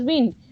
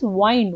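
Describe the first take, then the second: First: It is said like the word for moving air. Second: It is said like the word for coiling. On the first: The speaker calls it wrong. "we should not pronounce as wind" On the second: The speaker calls it right. "We will pronounce it as wind. Wind means we're just coiling around"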